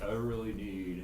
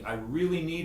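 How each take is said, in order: First: It is said half-heartedly, without conviction. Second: It is said earnestly, with conviction. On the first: The speaker does not really care. The speaker calls it wrong. "That's telling the universe I don't really care" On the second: The speaker truly wants it. The speaker calls it right. "just say it and mean it"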